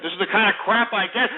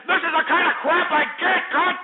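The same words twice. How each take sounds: First: Said in the usual way. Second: Higher and louder, fed up; exasperated outburst. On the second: Real, not acted. Host loses patience with his callers, higher exasperated outburst. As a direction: let the anger crack through on the repeat. Repeating complaint, building up.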